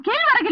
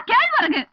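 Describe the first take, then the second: First: கீழ் வரகு said as two words, கீழ் then வரகு; mocking his split கீழ் வரகு; wrong split pronunciation. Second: கேழ்வரகு said as one word, raised; one smooth word கேழ்வரகு, lifted in pitch; correct pronunciation. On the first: Wife correcting husband, repeating his wrong கீழ் வரகு. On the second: Wife correcting husband, the proper கேழ்வரகு. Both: Shown as a demonstration. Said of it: "உன் நாக்குல வசம்ப வச்சு தேக்க".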